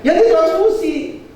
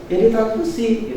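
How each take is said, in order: First: High, drawn-out DITRANSFUSI; exaggerated doctor's verdict. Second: Offhand doctor. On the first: Shown as a demonstration. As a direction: say "ditransfusi" high, slow and emphatic. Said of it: "Dia nggak ngomong gitu". ("ditransfusi" dengan nada tinggi, dipanjangkan) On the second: Retold or imitated. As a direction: toss off "ditransfusi" lightly but unhurried. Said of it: "Enteng aja transfusi". ("ditransfusi" dengan nada enteng)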